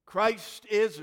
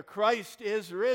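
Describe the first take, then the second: First: Loud, high proclamation; Easter call. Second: High, loud and drawn out, rising at the end; louder Easter call. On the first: Pastor calling out the Easter greeting, loud and high. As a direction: call it out to the whole church. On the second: Pastor asking the online congregation to answer, loud rising call. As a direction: stretch risen and lift it up to the people at home. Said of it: "I want to hear you out there". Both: Real, not acted.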